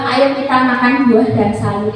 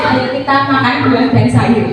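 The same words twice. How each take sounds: First: It is said in a normal voice. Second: It is said in a grandmother's voice.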